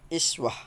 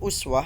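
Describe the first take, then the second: First: The word begins with an "i" vowel. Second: The word begins with a "u" vowel. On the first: "dengan mengkasrahkan hamzah berarti iswah" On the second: "mendammahkannya atau uswah"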